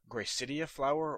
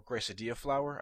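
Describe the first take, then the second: First: Gracidia said as "gray-SIT-ee-a"; alternative pronunciation. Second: Gracidia said as "gray-suh-DEE-a"; alternative pronunciation. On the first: Podcaster unsure of the flower's name, first pronunciation of Gracidia. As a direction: say Gracidia with a "city" sound in it. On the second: Podcaster correcting himself on the flower's name, second pronunciation of Gracidia. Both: Shown as a demonstration. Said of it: "Gracidia flower or Gracidia flower".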